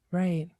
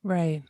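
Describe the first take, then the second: No difference in how they are said.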